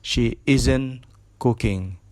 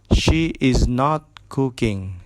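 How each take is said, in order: First: 'Is not' is contracted into one syllable. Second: 'Is not' is said as two full words.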